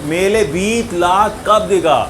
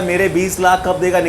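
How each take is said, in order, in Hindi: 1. पहले शब्द का 'r' 'l' बन जाता है। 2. पहले शब्द का 'r' साफ़ बोला गया है। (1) "उसको बोलते हैं तुतलाना" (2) "वो बेचारा बोला"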